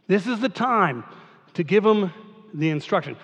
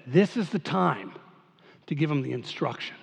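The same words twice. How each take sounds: First: Said in the usual way. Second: Lower, softer, knowing aside; a hint of the author musing quietly; author's voice. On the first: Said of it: "repeat in own voice". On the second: Pastor voicing the biblical author deciding to pause, soft musing. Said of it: "and he says".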